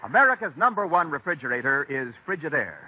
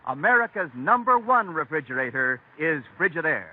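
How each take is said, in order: Both takes have the same delivery.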